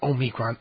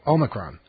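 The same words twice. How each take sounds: First: The stress is not on the first syllable. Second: The stress is on the first syllable. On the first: The speaker calls it wrong. "not Omicron" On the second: The speaker calls it right. "Emphasis on the first syllable"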